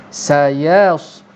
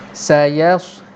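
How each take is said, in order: No difference in how they are said.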